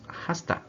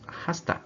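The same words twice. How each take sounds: First: The words blend together as 'hasta'. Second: The words blend together as 'hasta'.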